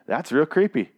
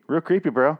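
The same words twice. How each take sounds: First: Said in the usual way. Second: Put-on, pitched-up "Real creepy" with a rising end; a teasing echo in a funny voice; a hint of a silly voice; mock creepy voice. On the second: Shown as a demonstration.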